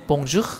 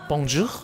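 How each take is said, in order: Both takes have the same delivery.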